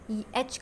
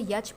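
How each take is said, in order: First: It begins directly with the vowel sound. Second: It begins with a y glide before the vowel.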